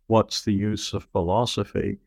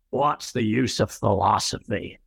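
First: The stress falls on the word philosophy. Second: The stress falls on the word use. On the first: It is asked as a plain, neutral question. "It has the title that you gave it" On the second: It is asked dismissively, doubting philosophy has any use. "it's designed to call attention to the fact that most people who ask that question ask it dismissively"

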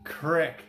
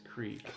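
First: The vowel is a short 'i' sound. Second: The vowel is a long 'ee' sound. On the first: This is the local, habitual pronunciation. "Crick is how we always said it" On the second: This is the standard pronunciation. "I think a proper pronunciation is creek"

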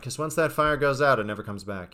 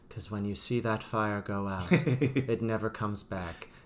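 First: It is delivered in a casual, everyday way. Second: It is delivered in a heavy, dramatic way.

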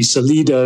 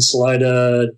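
First: The name is said with a Spanish pronunciation. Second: The name is said with an English pronunciation. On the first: This is the original way of saying the name. The speaker calls it right. "if you're pronouncing it in the proper Spanish" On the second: This is the local way of saying the name. The speaker calls it wrong. "we have a tradition of mispronouncing things out here in Colorado"

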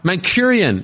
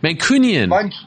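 First: The third syllable begins with an r sound. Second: The third syllable begins with an n sound. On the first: The speaker calls it wrong. "No, is that wrong?" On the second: The speaker calls it right. "There we go"

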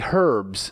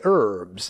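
First: The word is said the British way. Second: The word is said the American way. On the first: "In England, they say herbs" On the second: "We in America say herbs"

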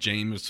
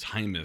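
First: The name is said like the word James. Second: The name is said like Hymus. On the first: The speaker calls it wrong. "I think it looks like James or Jameis" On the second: The speaker calls it right. "but it's Hymus"

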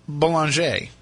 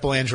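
First: The name is pronounced with a French twist. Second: The name is pronounced the plain English way.

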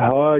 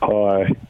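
First: It is said with more energy and enthusiasm. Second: It is said flatly, with little energy.

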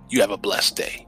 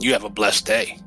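First: It is said in a curt, annoyed tone. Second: It is said in a warm, pleasant tone. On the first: The speaker is irritated and does not mean it kindly. "there's an attitude in the second one" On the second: The speaker sincerely wishes the listener well. "The first one, very pleasant"

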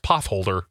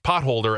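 First: The t and h are said as one th sound. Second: The t and h are said as separate sounds. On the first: The speaker calls it wrong. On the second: The speaker calls it right.

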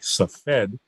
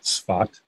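First: The name is said in the English way. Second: The name is said in the Hebrew way. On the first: "in English looks like Safed" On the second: "you'll hear me pronouncing it in the Hebrew way"

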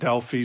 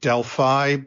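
First: It is said with the British and Greek pronunciation. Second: It is said with the common American pronunciation. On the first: "The Brits call it Delphi" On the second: "In the United States, most people pronounce it Delphi"

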